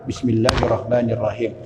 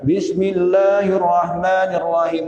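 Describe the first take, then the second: First: The phrase is said quietly, almost under the breath. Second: The phrase is said loudly and clearly aloud. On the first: "Bismillahnya sir" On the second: "Atau Bismillahnya jahar"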